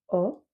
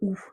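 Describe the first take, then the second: First: The vowel is an 'oh' sound. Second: The vowel is a closed 'oo' sound. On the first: The speaker calls it right. "il faut bien le dire o" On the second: The speaker calls it wrong. "on aurait envie de dire ou"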